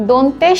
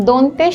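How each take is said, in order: Both takes have the same delivery.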